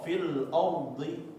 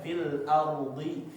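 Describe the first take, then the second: First: The first vowel of ardi sounds heavy, like o. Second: The first vowel of ardi sounds thin and light. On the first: The speaker calls it wrong. "Biasanya orang-orang ketika membacanya fil o" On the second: The speaker calls it right. "hamzah dikasih haknya, yaitu biasa dia tipis ya, tarqiq, nggak tebal"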